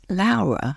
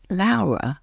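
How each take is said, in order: First: The name has an Italian pronunciation. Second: The name has an Italian pronunciation.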